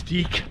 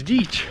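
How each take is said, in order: First: Deek said with a long ee and a hard k; old pronunciation deek. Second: Deech said with a long ee and a ch ending; old pronunciation deech. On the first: Guide explaining Viking word on the walk, saying deek. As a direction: say deek, rhyming with seek. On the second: Guide contrasting Anglo-Saxon sounds for walkers, saying deech. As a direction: say deech, rhyming with leech. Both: Shown as a demonstration. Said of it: "some people pronounce it as".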